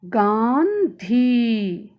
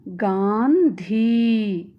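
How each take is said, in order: First: गांधी drawn out slowly, nasal गां through the nose; slow demo pronunciation. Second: गांधी drawn out slowly with a nasal ं; slow teacher model reading. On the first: Teacher showing children how to say गांधी, slowly. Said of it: "तब इसका उच्चारण इस प्रकार होगा". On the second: Teacher to children, slow model reading of गांधी. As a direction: read गांधी slowly, nasal vowel clear. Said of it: "अनुस्वार वाले कुछ शब्द पढ़ेंगे". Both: Shown as a demonstration.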